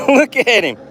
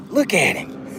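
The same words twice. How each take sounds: First: Louder, higher look at him; excited. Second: Said in the usual way. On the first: Real, not acted. Angler to viewers, excitedly showing the fish. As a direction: show off the fish with a burst.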